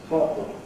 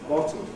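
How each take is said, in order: No difference in how they are said.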